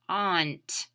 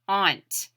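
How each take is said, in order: First: The vowel is said as an 'aw' sound. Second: The vowel is said as an 'aw' sound.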